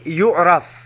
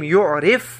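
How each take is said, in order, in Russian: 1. Гласная после r — 'a'. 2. Гласная после r — 'i'.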